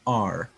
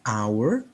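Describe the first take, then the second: First: The word sounds like the letter R. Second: The word does not sound like letter R. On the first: "seperti menyebut huruf R dalam bahasa Inggris" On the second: "Kita katakan our"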